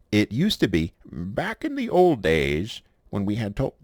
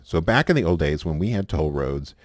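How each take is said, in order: First: Put-on old man voice. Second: Said in the usual way. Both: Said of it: "I'm doing my old man voice".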